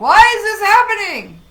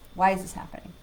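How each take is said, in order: First: It sounds frustrated and complaining. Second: It sounds curious and open.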